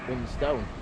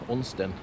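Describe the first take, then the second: First: The last syllable has a full 'stone' vowel. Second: The last syllable has a short, weak vowel. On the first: This is how a southerner says it. "John pronounces it Unstone" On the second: This is the local way the speaker has always said it. "I've always pronounced it Unston"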